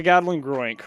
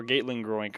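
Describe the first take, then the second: First: Gatling pronounced "GAT-ling", drawn out; short-A pronunciation. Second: Gatling pronounced "GATE-ling", quicker aside; long-A pronunciation. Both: Shown as a demonstration. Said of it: "however you wanna pronounce it".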